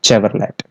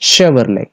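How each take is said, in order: First: It is said letter by letter, as spelled. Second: It is said the usual way, not as spelled. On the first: The speaker calls it wrong. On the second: The speaker calls it right.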